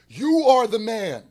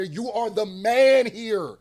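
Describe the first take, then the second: First: "You" punched loud and higher at the start of "You are the man"; stress on you. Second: "man" leaned on in "You are the man here", slow; stress on man. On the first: Pinning it on [name], stressing "You". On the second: Telling [name] he is the system, stressing "man". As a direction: hit the word "man" hardest. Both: Real, not acted.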